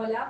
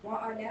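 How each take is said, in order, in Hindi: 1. दोनों शब्द जल्दी में एक साथ जोड़ दिए जाते हैं। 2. दोनों शब्द साफ़ तौर पर अलग-अलग बोले जाते हैं।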